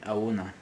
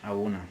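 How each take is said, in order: No difference in how they are said.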